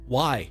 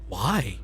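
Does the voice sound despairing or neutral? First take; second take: neutral; despairing. First: It is said with little despair. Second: It is said with heavy despair.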